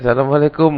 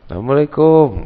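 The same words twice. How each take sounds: First: It is said in a plain, standard accent. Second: It is said in a Betawi accent.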